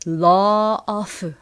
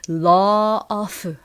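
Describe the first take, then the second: First: The two words are said separately. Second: The same.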